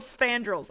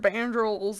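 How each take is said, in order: First: It starts with 'sp' and ends in 'drels'. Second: It starts with 'b' and ends in 'drels'. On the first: The speaker calls it right. "I finally figured out how to say it right" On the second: The speaker calls it wrong. "I've called it all sorts of crazy stuff"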